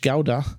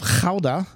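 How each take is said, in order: First: The name is given an English-style pronunciation. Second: The name is given a Dutch-style pronunciation. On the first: "or you would say in English" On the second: "from the Dutch community of Gouda"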